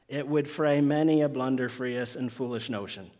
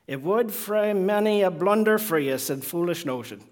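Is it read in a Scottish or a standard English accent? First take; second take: standard English; Scottish. First: It is read in a standard English accent. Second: It is read in an attempted Scottish accent.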